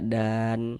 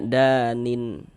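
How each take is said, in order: First: The word stops on a bare final n. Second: The word ends with an added -in syllable. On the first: The speaker calls it right. "Ini kalau berwakaf kita baca dan" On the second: The speaker calls it wrong. "jangan baca danin baru berwakaf"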